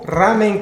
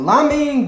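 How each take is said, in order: First: The word begins with an R sound. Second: The word begins with an L sound.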